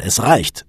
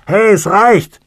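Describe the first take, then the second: First: Resolute, without shouting; slightly raised, decisive statement; firm, decided. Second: High, loud shout from inside a coffin; full-voiced, high-pitched holler; angry shout. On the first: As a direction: put your foot down firmly. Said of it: "sagte er entschieden". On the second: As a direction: yell in protest to be let out. Trapped man hammers on coffin lid. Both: A narrator's reading.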